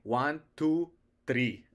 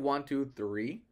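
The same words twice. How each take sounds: First: It is said with a strong foreign accent. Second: It is said in a standard English accent. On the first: "I would say" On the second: "instead of saying"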